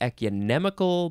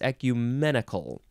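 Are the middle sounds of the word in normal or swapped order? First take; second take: swapped; normal. First: The middle sounds are switched around. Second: The middle sounds are in their usual order. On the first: The speaker calls it wrong. "I want to say ecumenical" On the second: The speaker calls it right. "but it's ecumenical"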